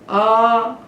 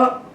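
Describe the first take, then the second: First: The vowel is held for two beats. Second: The vowel is held for one short beat. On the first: "ये द्विमात्रक है" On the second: "ये एक मात्रक है"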